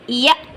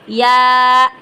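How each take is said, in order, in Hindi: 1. यह स्वर छोटा है और जल्दी कट जाता है। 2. यह स्वर खींचकर लंबा किया गया है। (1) "लंबा नहीं करना, साकिन करना है" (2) "गलत है"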